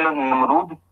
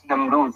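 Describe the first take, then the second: First: Namrud ending in a hard d; final d stop in Namrud; Namrud with dal. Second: Tongue between teeth on the last sound of Namrud; Namrud with dhal. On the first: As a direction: say Namrud with a plain d at the end. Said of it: "with a dal". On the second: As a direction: say Namrud with final dh. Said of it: "Namrud with a dal". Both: Shown as a demonstration.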